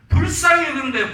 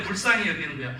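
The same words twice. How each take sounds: First: 불쌍히 punched loud and much higher; shouted emphasis. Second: Said in the usual way. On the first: Real, not acted. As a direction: hit 불쌍히 hard with a shout. First take of repeated phrase, shouted. (불쌍히를 크게 외치며 강조)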